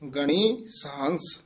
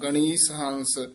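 First: The s sound starts the second word. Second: The s sound is joined to the first word. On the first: The speaker calls it right. "ਗਣੀ ਵੱਖਰਾ ਪਾਠ ਬੋਲਣਾ, ਸਹੰਸ ਵੱਖਰਾ ਬੋਲਣਾ" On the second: The speaker calls it wrong. "ਗਣੀਸ ਐ ਨੀ ਬੋਲਣਾ"

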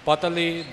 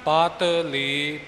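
First: It is run together as one word. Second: It is split into two separate parts. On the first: It gives a different meaning. "ਪਤਲੀ ਦੂਸਰੇ ਅਰਥਾਂ ਦੇ ਵਿੱਚ ਪਾਠ ਵਿਦਵਾਨ ਜਨ ਕਰਦੇ ਨੇ" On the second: It follows the traditional reading and meaning. "ਵੱਖਰਾ ਵੱਖਰਾ ਪਾਠ ਕਰਨਾ"

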